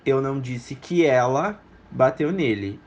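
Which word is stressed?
ela. The word ela is stressed. Someone else hit him. "Eu disse que alguém bateu nele, não especificamente ela"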